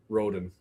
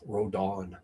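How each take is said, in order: First: The name is said with an English-style pronunciation. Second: The name is said with a Spanish-style pronunciation. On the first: "I've pronounced Roden before, but that's what I got from the broadcaster" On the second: "I want to do the Spanish pronunciation that you see in baseball"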